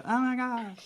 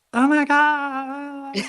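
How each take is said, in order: First: Put-on high girly gasp; excited squeal. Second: Put-on high, drawn-out girly squeal; excited squeal. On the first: Second imitation of girlfriends. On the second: Girlfriends excited, imitated squeal.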